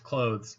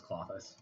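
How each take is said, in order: First: CLOTHES with a long OH, like the word for garments; CLOTHES said "klohdz", long OH; mispronounced as one syllable. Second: CLOTHES with a short AH, then a soft "thiss"; CLOTHES said like "KLAH-thiss", stressed first; correct two-syllable pronunciation. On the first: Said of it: "No, it's pronounced". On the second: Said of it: "it's pronounced". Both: Shown as a demonstration.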